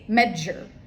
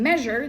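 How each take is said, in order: First: The middle sound has an added d before it. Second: The middle sound is plain, with no d. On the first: The speaker calls it wrong. "they say medjur" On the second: The speaker calls it right. "instead of saying measure"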